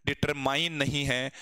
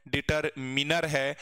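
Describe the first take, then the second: First: डिटरमाइन said with a long "ai" as in mine; the wrong way: डिटरमाइन with "mine"; wrong pronunciation demo. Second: डिटरमिनर said slowly with a short "min"; the right way: डिटरमिनर, short "i" in min, slow; right pronunciation demo. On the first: Teacher showing students the wrong way, डिटरमाइन said slowly with "mine". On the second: Teacher correcting students, डिटरमिनर said slowly with a short "min". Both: Shown as a demonstration. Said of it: "डिटरमिन है".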